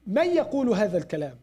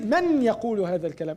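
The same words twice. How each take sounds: First: The n merges into the y in fast speech. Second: The n is said fully before the y. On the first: The speaker calls it right. "they said" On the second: The speaker calls it wrong. "They don't say ... It's hard for us to say"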